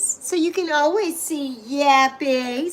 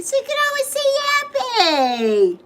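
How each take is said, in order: First: Said in the usual way. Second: Much higher, cutesy squeak; squeaky high voice. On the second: Shown as a demonstration. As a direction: pitch it way up like a cartoon. Repeats line in new voice.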